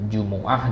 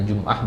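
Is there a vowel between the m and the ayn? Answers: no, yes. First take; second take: yes; no. First: The m is followed by a u vowel. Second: The m is followed by no vowel.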